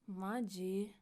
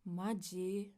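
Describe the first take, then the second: First: It is said in an annoyed, exasperated tone. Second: The same.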